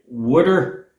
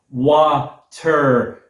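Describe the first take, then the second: First: It is said with a Philadelphia accent. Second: It is said with a General American accent. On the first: "I normally say wooder, like my parents before me" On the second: "pronounce it water, like a like a normal average American"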